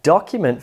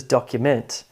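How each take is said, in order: First: Document as a noun, DOC strong, weak ending; stress on first syllable. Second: Document as a verb, fuller MENT; docuMENT, ending unreduced; subtle stress shift. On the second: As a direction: give the last syllable of document more weight. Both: Shown as a demonstration. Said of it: "subtle shift in stress".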